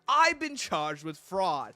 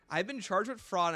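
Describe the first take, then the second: First: It is said in an imitated Coding Pizza voice. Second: It is said in his own normal voice.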